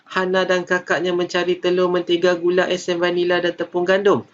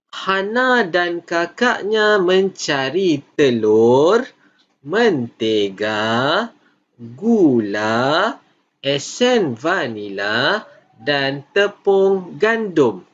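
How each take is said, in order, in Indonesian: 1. Item-item itu dibaca dengan cepat tanpa jeda sama sekali. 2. Ada jeda pendek di antara setiap item dalam daftar. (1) "Awak tidak boleh baca laju sahaja. Contohnya macam ini" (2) "apabila cikgu uh, baca telur, uh, cikgu berhenti sebentar"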